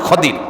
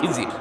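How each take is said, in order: First: The middle consonant is a d sound. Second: The middle consonant is a z sound. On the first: This is the correct pronunciation. The speaker calls it right. "এটার সঠিক উচ্চারণ খদির" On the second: This is how people commonly say it. The speaker calls it wrong. "যেটাকে আপনারা খিজির বলি আমরা"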